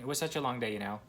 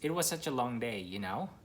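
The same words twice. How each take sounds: First: "You know" is said as a hesitant filler. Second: "You know" is said as a request for agreement.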